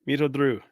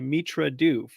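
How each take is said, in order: First: The R sound comes in the second word. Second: The R sound comes in the first word. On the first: The speaker calls it right. "you got it" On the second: The speaker calls it wrong. "I want to shift the R to the"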